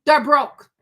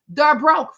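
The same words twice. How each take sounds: First: Loud, punchy "They're broke"; louder retort repeated; emphatic. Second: Loud, punchy "They're broke"; louder retort: "They're broke"; emphatic. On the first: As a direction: hammer it again, loudly. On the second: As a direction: slam the point home loudly. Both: Real, not acted.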